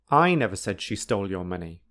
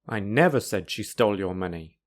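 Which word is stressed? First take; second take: I; never. First: The stress falls on the word I. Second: The stress falls on the word never. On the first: Someone else said it. "The meaning is that somebody said she stole your money, but it wasn't me" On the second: It was never said at any time. "This sentence emphasizes that I never, ever"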